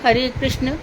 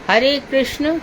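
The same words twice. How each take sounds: The two takes are said the same way.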